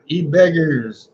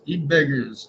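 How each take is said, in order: First: E-beggars drawn out slowly and stressed. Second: Said in the usual way. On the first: Acted. Streamer reading names to chat, slow emphatic e-beggars. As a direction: lean on e-beggars, slow and heavy. Listing who gets trolled.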